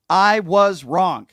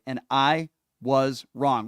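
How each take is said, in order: First: "I was wrong" loud, very slow and higher; angry at himself, slow and loud; emphatic. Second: Said in the usual way. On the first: Real, not acted. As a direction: hammer each word of "I was wrong". Host repeats his admission loudly.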